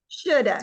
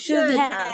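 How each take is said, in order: First: The words blend, with "have" reduced to "a". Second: Both words are pronounced fully and separately. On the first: "American speakers will say shoulda" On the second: "saying it nice and clearly"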